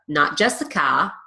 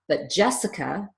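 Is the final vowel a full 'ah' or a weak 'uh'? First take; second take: ah; uh. First: The final vowel is a full open 'ah'. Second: The final vowel is a weak 'uh' schwa. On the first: The speaker calls it wrong. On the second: The speaker calls it right. "but Jessica, pronouncing the uh instead of ah"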